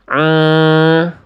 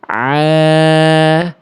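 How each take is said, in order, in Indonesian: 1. Bunyinya naik ke rongga hidung. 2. Bunyinya didorong ke depan, keluar lewat mulut. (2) "neken tengah tenggorokan, lempar ke depan"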